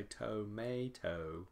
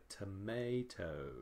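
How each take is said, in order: First: "tomato" as toh-MAY-toh, full O first; unreduced first vowel. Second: "tomato" as tuh-MAY-toh, uh first; reduced first vowel. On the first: Teacher showing what we don't say, "tomato" with a full first O. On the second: Teacher showing what we say, "tomato" with first vowel reduced to uh. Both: Shown as a demonstration. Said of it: "changes from O to uh".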